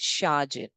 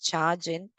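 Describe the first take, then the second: First: The word starts with an sh sound. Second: The word starts with a ch sound. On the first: The speaker calls it right. "It's sharjin" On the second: The speaker calls it wrong. "read this as chargin or cargin"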